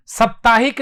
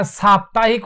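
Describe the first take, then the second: First: साप्ताहिक said as "सप्ताहिक", short first a; the wrong way, साप्ताहिक with a short "स"; teacher showing the error, साप्ताहिक with short स; wrong pronunciation. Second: साप्ताहिक said with long "सा" at the start; the right way, साप्ताहिक with a long सा; teacher showing the correct form, साप्ताहिक with long सा; correct pronunciation. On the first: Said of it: "साप्ताहिक नहीं होता". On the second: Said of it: "साप्ताहिक होता है". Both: Shown as a demonstration.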